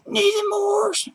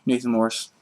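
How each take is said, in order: First: Very high, drawn-out squeal; squealed greeting. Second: Said in the usual way. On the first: Pretend. Greeting missed friend Nathan Morse, squealed. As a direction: stretch the name out in a tiny high voice.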